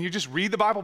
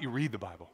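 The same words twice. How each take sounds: First: Said in the usual way. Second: "read" leaned on in a low, hushed voice; weighty stress on READ. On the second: Shown as a demonstration. Preacher showing how to really read the Bible, hushed emphasis. Contrasts just reading with truly reading.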